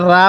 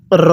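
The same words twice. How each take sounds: First: রা with an open aa vowel; wrong-example রা, unrounded aa; mistaken RAA reading. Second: র rolled with a rounded, held o; full, drawn-out র with rounded vowel; correct RO reading. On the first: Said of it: "অনেকে এটাকে ভুলে আমরা রা পড়ি". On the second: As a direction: say র as a long "rro", never raa. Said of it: "এরকমভাবে পড়ব". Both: Shown as a demonstration.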